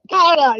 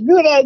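First: Gouda said "GOW-da", Dutch-style; corrected pronunciation. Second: Gouda said "GOO-da"; mock the "GOO-da" version of Gouda; mistaken pronunciation. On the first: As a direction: say Gouda with an open "ow" first syllable. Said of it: "Not Gouda". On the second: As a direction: say Gouda with an "oo" in the first syllable. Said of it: "it's Gouda". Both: Shown as a demonstration.

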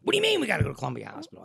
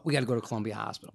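First: Very fast, incredulous comeback; startled wife. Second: Said in the usual way. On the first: Retold or imitated. Wife questioning husband about the hospital, startled. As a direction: fire the question straight back, mildly imitated alarm.

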